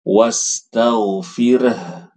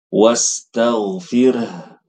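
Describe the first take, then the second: No difference in how they are said.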